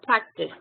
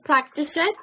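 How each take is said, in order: First: The ending is a plain t sound, no syllable. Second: The ending is said as an extra syllable. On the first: The speaker calls it right. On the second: The speaker calls it wrong. "you don't pronounce it"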